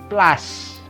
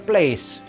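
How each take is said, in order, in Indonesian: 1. Diucapkan dengan pengucapan Prancis. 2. Diucapkan dengan pengucapan Inggris. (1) "Ce itu se, maka place ya" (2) "Salah kalau bahasanya place"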